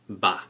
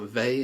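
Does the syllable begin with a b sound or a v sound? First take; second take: b sound; v sound. First: The syllable begins with a b sound. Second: The syllable begins with a v sound. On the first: The speaker calls it right. "it's ba" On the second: The speaker calls it wrong. "It's not ve"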